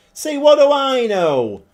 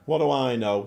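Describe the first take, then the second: First: Loud and high, gloating at his own call; gloating exclamation. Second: Said in the usual way. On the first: Real, not acted. Manager gloating after his striker scores, loud. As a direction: crow it like you were proven wrong.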